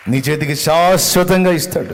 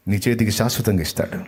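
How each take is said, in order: First: శాశ్వతంగా shouted loud and high; loud preacher's proclamation; preaching shout. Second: Said in the usual way. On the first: Acted. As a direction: proclaim the promise at full voice. Repeated promise, shouted.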